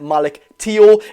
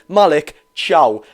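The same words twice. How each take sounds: First: The surname does not sound like Italian 'ciao'. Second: The surname sounds like Italian 'ciao'. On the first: The speaker calls it wrong. "I've been pronouncing his name wrong. I was pronouncing it" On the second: The speaker calls it right. "like you're saying hi or bye in Italian"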